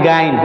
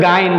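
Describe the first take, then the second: No difference in how they are said.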